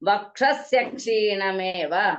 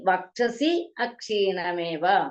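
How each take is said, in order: First: The words run together with a joining y sound. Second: The two words are said separately, not joined. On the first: "അങ്ങനെയും ചെല്ലാം" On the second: "അങ്ങനെയും ചെല്ലാം"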